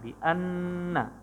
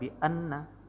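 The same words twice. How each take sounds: First: The doubled n is held with a long nasal hum. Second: The doubled n is said quickly without holding. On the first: The speaker calls it right. "jadi harus ditahan dua harokat" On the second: The speaker calls it wrong. "nggak boleh bi anna, nggak boleh cepet-cepet"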